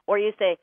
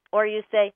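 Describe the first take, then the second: No difference in how they are said.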